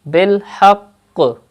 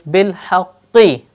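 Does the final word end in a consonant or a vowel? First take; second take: consonant; vowel. First: The word ends on a doubled q consonant. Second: The word ends with a short i vowel. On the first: "In the case of waqf" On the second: "qaf has tashdeed on it and zair below it"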